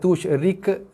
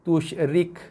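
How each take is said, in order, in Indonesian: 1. Huruf k terakhir berakhir dengan gema memantul. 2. Huruf k terakhir dilepas dengan sedikit hembusan napas. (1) "jangan tushrik, bukan rik, itu qalqalah" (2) "lepaskan tekanan berserta dengan keluarnya hembusan angin"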